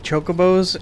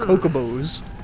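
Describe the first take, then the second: First: The word begins with a ch sound. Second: The word begins with a k sound. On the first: The speaker calls it right. "I heard them say chocobos" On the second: The speaker calls it wrong. "My brother and I had pronounced them"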